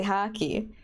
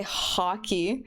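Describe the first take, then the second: First: Hockey with the vowel leaning toward A as in hacky; hockey said almost as hacky; flat-A hockey. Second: Hockey with the O said as ah; hockey said as hah-key; open-O hockey. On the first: Streamer showing how they really say it. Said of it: "I say hockey". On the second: Streamer showing the version they don't use. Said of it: "I don't say hockey". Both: Shown as a demonstration.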